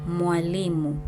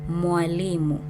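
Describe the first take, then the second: The two takes are said the same way.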